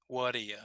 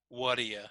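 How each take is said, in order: Both takes have the same delivery.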